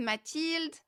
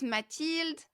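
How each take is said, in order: First: The name is pronounced the French way. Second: The same.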